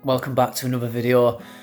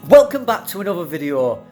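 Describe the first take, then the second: First: It is said in a flat, low-energy way. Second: It is said in an upbeat, energetic way.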